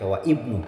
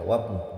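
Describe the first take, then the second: First: The glottal stop before ibnu is pronounced separately. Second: The glottal stop is dropped and the words link. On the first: The speaker calls it wrong. "tidak boleh dibaca wa ibnu" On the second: The speaker calls it right. "tapi dibaca wabnu"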